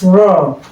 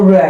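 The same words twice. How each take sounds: First: The vowel is the long open 'aw' sound. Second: The vowel is not the long open 'aw' sound. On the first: The speaker calls it right. "it's raw. You put the sound where you see O A" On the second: The speaker calls it wrong. "Some people pronounce it raw. It's not raw"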